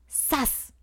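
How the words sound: It sounds like a sudden blow or fall.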